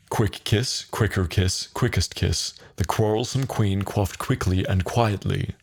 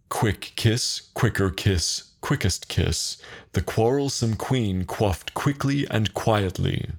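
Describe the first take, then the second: First: It is said at a faster pace. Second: It is said at a slower pace.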